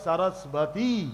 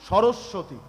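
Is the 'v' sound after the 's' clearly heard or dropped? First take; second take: clear; dropped. First: The 'v' sound after the 's' is clearly heard. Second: The 'v' sound after the 's' is dropped. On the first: This is the Sanskrit form that keeps every sound. "সংস্কৃতে বলা হয় সরস্বতী। ওই বটা" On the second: This is the everyday Bengali form. "যেমন আমরা বাংলায় কি বলি?"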